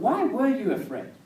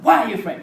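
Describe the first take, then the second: First: It is said in a gentle tone. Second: It is said in an angry tone.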